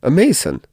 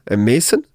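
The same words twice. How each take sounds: First: "A Mason," high then falling, settled; firm answer. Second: "A Mason?" with a rising, doubting lilt; scoffing question. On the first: Montresor answering Fortunato, firm falling assertion. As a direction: state "Mason" as a flat fact. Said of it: "I replied". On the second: Fortunato questioning Montresor, mocking doubt. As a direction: sound unconvinced on "Mason". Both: Acted.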